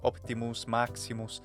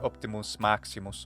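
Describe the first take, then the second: First: The middle vowel is a clear, pure vowel. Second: The middle vowel is short and indistinct. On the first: "the nice pure vowel" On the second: "it was probably very short, rather indistinct"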